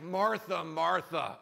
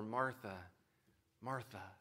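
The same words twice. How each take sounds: First: It sounds exasperated and impatient. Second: It sounds tender and caring.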